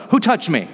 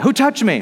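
First: Said in the usual way. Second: Urgently calling out "touched" over the crowd; insistent repeat. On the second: Acted. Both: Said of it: "Jesus does that".

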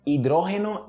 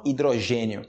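First: "Hidrógeno" as i-DRO-he-no; higher "Hidrógeno", stress on DRÓ; Spanish. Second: "hidrogênio" as i-dro-ZHE-nyo; Portuguese. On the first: Teacher reading Spanish first, "Hidrógeno" stressed on DRÓ. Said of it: "Em espanhol primeiro". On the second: Teacher answering in Portuguese, "hidrogênio" stressed on GÊ. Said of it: "em português". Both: Shown as a demonstration.

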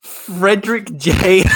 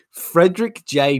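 First: Reading in disbelief. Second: Said in the usual way. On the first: Real, not acted. Rereads name in disbelief.

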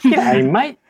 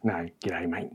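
First: Loud, high, hammed-up Australian "G'day, mate"; overdone Australian. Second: Soft, low, understated Australian "g'day, mate". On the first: Disguised bugbear practicing an Aussie greeting, overdone Australian. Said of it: "Is it twangy enough?". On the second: Shown as a demonstration. Player correcting an accent demo, quiet Australian. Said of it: "That's how they sound".

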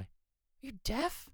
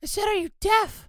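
First: Soft, low-key muttered question; mumbled question. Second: Louder, higher, exasperated repeat; speaking up. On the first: Sound engineer questioning host's hearing, mumbled. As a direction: ask it too quietly to be heard. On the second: Sound engineer told to speak up, louder. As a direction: raise your voice to be heard. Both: Acted. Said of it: "Speak up, [name]".

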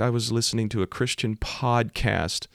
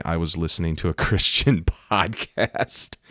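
First: High-pitched, mock-weepy quote; imitated tearful confession. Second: Slow, teasing echo with a laugh; mocking quote. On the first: Crying driver explaining the crash, imitated tearful voice. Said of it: "She's just crying". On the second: Preacher ribbing her podcast excuse, mocking and amused. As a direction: drag it out sarcastically, laughing. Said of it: "that's real smart. Hit somebody with your car and say".

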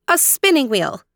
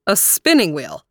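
First: High-pitched princess voice; princess Aurora. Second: Puzzled stranger. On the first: Aurora telling the stranger what she needs, high. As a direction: answer high, as the young princess. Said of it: "said Aurora". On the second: Stranger echoing Aurora's request, puzzled. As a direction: echo the odd request. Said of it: "said the stranger". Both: A narrator's reading.

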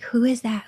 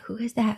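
First: Said in the usual way. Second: Breathy unvoiced whisper, much softer. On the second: Asking herself inside her head, whispered. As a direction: whisper it like a private thought.

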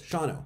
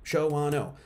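First: "Shawano" as SHAW-no; two syllables. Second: "Shawano" as sho-WAH-no; three syllables. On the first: Showing viewers the simplified name, "Shawano" as SHAW-no. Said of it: "Two syllables". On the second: Showing viewers the full name, "Shawano" as sho-WAH-no. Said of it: "How many syllables is Shawano?". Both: Shown as a demonstration.

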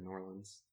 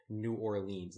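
First: New Orleans with a short, reduced "lins" ending; local pronunciation of New Orleans. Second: New Orleans with a long "leens" ending; mispronounced New Orleans. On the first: Host giving the preferred version, New Orleans as "New OR-lins". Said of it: "instead of New Orleans". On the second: Host mimicking outsiders' version, New Orleans as "New Or-leens". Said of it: "It's like people who say". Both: Shown as a demonstration.

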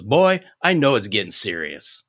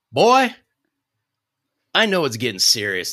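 First: Said in the usual way. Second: Put-on deep Mississippi accent. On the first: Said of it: "now it's just my voice". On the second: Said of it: "This is the end of the accent".

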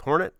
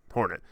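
First: Hornet? rising high, unsure; doubtful question. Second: Said in the usual way. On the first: Real, not acted. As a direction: ask hornet? with an upward lilt.

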